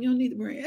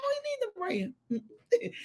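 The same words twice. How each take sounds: First: Said in the usual way. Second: High, soft, slow self-mimicry; mock squeal. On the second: Mimicking her own odd phrasing for viewers, slow high squeal. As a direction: stretch it out high and quiet. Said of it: "That's why I said like that".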